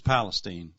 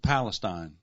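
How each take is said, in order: First: The name is given its Texas local pronunciation. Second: The name is given its Ohio local pronunciation. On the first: This is how the Texas town is named locally. "In Texas, it's Palestine" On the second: This is how the Ohio town is named locally. "or is it Palestine?"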